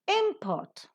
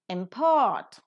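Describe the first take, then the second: First: The stress is on the first syllable. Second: The stress is on the second syllable. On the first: It is used as a noun. "a noun" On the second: It is used as a verb. "a verb"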